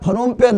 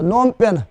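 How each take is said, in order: First: The name starts with a P sound before N. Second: The name starts with an N sound, no P. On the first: The speaker calls it wrong. "फनोम पेन नहीं बोलना है" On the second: The speaker calls it right. "इसमें P भी silent है, H भी silent है"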